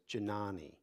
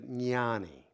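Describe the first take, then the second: First: The word begins with a hard English J sound. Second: The word begins without a hard English J sound. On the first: The speaker calls it wrong. "It's often mispronounced as Jnani. It's not a J" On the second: The speaker calls it right. "it's a Jna"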